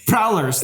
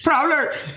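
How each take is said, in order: First: It is said in his normal speaking voice. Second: It is shouted in a put-on character voice.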